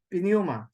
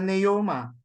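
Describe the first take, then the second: First: A strong, emphasized p comes before the n. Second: The word starts with n; no p sound. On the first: "So if you strengthen the p" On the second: "others would simply ignore the P. It just becomes a neuma"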